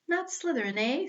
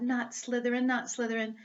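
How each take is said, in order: First: Higher, teasing echo of the words; small questioning hat voice. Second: Said in the usual way. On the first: Acted. The Sorting Hat echoes Harry's plea, in a higher quizzical voice. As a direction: toss the words back to him, quizzical. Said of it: "said the small voice". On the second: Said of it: "Harry gripped the edges of the stool and thought".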